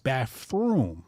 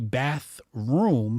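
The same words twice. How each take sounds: First: The middle sound is an 'f'. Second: The middle sound is a 'th'. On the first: "he says bathroom, right? With the F" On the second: "he doesn't say bathroom"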